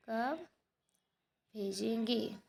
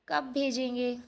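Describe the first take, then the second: First: Slow dictation. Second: Said in the usual way. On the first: Shown as a demonstration. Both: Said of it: "teacher dictating answer".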